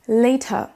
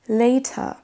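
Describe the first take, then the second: No difference in how they are said.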